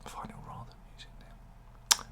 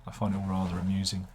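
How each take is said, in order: First: Breath only, no voice, a private joke; whispered to the viewers as he repeats himself. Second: Said in the usual way. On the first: Pretend. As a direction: whisper it, repeating the line as a sly aside.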